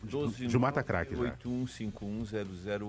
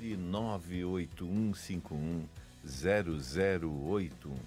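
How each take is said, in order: First: It is said fast. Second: It is said slowly.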